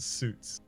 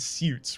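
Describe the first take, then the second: First: The vowel is a plain 'oo', like 'soots'. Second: The vowel has a 'y' glide, like 'syoots'. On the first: "rather than two O's" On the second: "there's an I in it"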